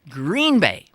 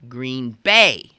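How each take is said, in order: First: The stress falls on the word Green. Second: The stress falls on the word Bay. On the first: This is how outsiders say it. The speaker calls it wrong. "almost everybody not from it mispronounces it" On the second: This is how locals say it. The speaker calls it right. "If you're from that place, you say Green Bay. The idea being that the adjective green is not as important as the noun bay"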